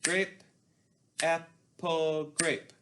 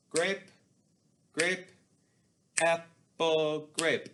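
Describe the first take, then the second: First: Grape, grape, apple, grape called out on the beat; rhythm demo. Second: Grape, grape, apple, grape called out on the beat; a louder chant, one beat per word; rhythm demo. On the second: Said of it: "Your turn, say it with me". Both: Shown as a demonstration. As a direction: demonstrate the rhythm clearly for students.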